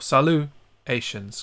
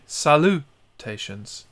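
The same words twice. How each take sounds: First: It is said with French sounds, no T sound. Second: It is said with English sounds, the T pronounced.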